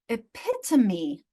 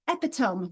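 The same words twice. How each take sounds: First: The final e is sounded as a syllable. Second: The final e is silent, like 'tome'. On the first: The speaker calls it right. "that E at the end is going to be sounded" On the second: The speaker calls it wrong. "I sound that out"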